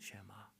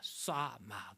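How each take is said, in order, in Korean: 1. 부드럽고 매끄럽게 말해요. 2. 거칠고 세게 말해요. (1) "쉐마는 조금 부드러워졌어요" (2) "굉장히 이 히브리 말이 굉장히 세요, 억양이"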